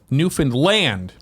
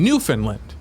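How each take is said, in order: First: The stress is on the last syllable. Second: The stress is on the first syllable. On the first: The speaker calls it right. "Because he capitalized land" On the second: The speaker calls it wrong. "You're putting it on the, the first syllable"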